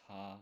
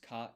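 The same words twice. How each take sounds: First: The vowel is held long. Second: The vowel is short.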